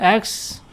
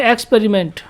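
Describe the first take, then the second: First: experiment broken after x, with a long pause before पेरिमेंट; split into syllables. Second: Said in the usual way. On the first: Shown as a demonstration. (Experiment को तोड़कर बोलें: "x", रुकें, फिर "पेरिमेंट") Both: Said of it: "कितने syllable में divide कर सकते हैं".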